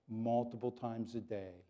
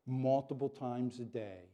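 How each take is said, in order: Both takes have the same delivery.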